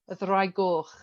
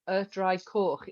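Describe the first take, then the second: First: The last word begins with a soft G sound. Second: The last word begins with a hard K sound. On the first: The speaker calls it right. "So the C becomes a G on coch" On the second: The speaker calls it wrong. "you wouldn't say y draig coch because it doesn't sound right"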